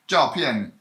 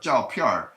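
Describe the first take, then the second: First: The word ends without an R sound. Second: The word ends with an added R sound.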